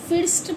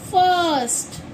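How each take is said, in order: First: The vowel sounds like a short 'i'. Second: The vowel sounds like 'uh'. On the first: The speaker calls it wrong. "फिर्स्ट पढ़ेंगे या फाइस्ट पढ़ेंगे? नहीं" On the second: The speaker calls it right. "हम इसे पढ़ेंगे फर्स्ट"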